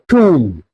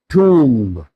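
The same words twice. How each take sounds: First: The final b is silent. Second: The final b is pronounced. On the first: The speaker calls it right. "B is silent" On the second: The speaker calls it wrong. "not tomb"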